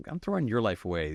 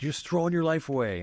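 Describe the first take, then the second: First: Lightly mocking, tossing the line back at him; a cheeky teen retorting to his father; defiant comeback. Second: Raised, exasperated scolding in dad's voice; a father scolding a rebellious son; imitating furious dad. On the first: Son sassing back at his dad, lightly mocking. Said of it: "And I was like". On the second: Father scolding his son, mock exasperated. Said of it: "And he was just furious".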